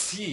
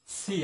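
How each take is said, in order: First: "সি" with a long strong s before the vowel; correct letter C. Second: "সি" as a short ordinary Bengali syllable; everyday wrong C. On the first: Teacher gives the correct pronunciation, "সি" with a strong sibilant. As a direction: draw out the s in "সি". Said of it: "correct pronunciation হবে". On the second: Teacher shows what we say, "সি" short and unemphasised. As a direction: say "সি" casually, with little s. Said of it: "আসলে এর সি না". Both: Shown as a demonstration.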